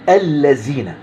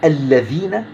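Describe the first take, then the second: First: The middle consonant is a z sound. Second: The middle consonant is a voiced th sound. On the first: The speaker calls it wrong. "بالزين أو الزاي" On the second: The speaker calls it right. "بالذال"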